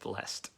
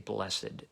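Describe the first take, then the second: First: The word is said with one syllable. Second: The word is said with two syllables. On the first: It follows the ordinary modern reading. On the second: It follows the older, traditional reading.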